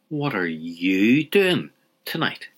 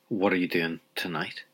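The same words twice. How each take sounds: First: The question is said with strong emphasis. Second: The question is said plainly, without extra emphasis. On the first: "Hear the difference? We're being emphatic" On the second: "instead of"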